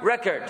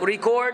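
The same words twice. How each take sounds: First: "record" as the verb, re-CORD. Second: "record" as the noun, RE-cord. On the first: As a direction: lean on the second syllable of "record". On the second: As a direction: lean on the first syllable of "record". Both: Shown as a demonstration. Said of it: "We want examples, like".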